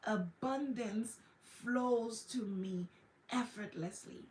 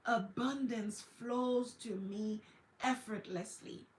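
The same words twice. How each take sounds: First: A drawn-out soothing affirmation; slower repeated affirmation. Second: Slow calm affirmation. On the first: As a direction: repeat it like a calm mantra. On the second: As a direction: let each word settle, unhurried. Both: Shown as a demonstration. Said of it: "turn around and say".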